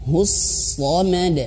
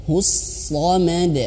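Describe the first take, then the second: No difference in how they are said.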